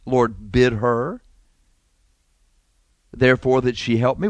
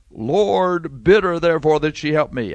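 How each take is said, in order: First: Prayer request. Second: Belittling sister. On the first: Martha asking the Lord for help, as a prayer request. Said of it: "Was this a prayer request?". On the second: Martha embarrassing her sister before the guest, belittling. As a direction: complain for all to hear, pitched up. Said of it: "trying to embarrass her sister". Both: Acted.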